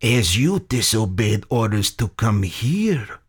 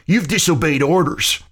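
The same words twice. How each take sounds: First: Measured foreign villain's comeback; unruffled Soviet general. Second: High-pitched, mocking jab; snickering taunt. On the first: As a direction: turn the taunt back on him, deliberately. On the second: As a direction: needle him with a snicker in the voice. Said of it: "McCreary snickered". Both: A narrator's reading.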